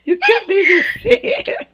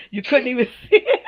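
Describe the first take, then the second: First: Much higher, laughing almost to tears; flattered laughing repeat, way up high; squealing laugh. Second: Giggling through the words; bashful laughing protest. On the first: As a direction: break into a high giggle as you repeat it. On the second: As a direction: laugh it out, flattered. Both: Real, not acted. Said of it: "I'm too dark to blush".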